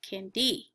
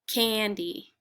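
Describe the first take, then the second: First: The stress is on the second syllable. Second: The stress is on the first syllable. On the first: The speaker calls it wrong. "put the accent on the second syllable" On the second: The speaker calls it right. "the accent usually for a two-syllable name is on the first syllable"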